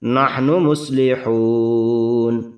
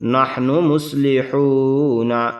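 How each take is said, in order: First: The last word ends on the consonant n. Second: The last word ends with a vowel sound. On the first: The reader stops to take a breath here. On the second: The reading continues without stopping.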